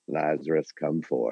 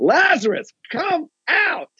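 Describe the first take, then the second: First: It is said calmly, without shouting. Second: It is shouted loudly.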